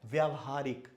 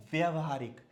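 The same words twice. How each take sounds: First: व्यवहारिक with long "vyaa" at the start; correct pronunciation. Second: व्यवहारिक with short "vya" at the start; common mispronunciation. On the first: Teacher giving the right form, व्यवहारिक with long first vowel. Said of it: "क्या होता है?". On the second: Teacher showing the wrong form, व्यवहारिक with short first vowel. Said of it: "तो ये व्यवहारिक नहीं". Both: Shown as a demonstration.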